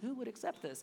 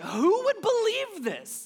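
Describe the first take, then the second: First: It is said casually, without edge. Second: It is said with an indignant edge.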